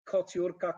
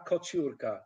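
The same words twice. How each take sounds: First: Said in the usual way. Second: "kociurka" with t and y merged; "kociurka" lower, with an English ch; wrong assimilation. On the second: Shown as a demonstration. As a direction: blend the middle of "kociurka" into ch. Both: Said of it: "No way".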